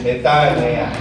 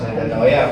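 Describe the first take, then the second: First: The word follows the recommended Greek pronunciation. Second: The word follows the common local pronunciation. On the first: The speaker calls it right. "but it should be metanoia" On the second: The speaker calls it wrong. "sa atin, pag-pronounce metanoia"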